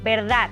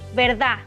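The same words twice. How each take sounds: First: The final d is pronounced. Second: The final d is dropped. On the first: "En México" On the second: "se pierde la D entre vocales o al final de palabra"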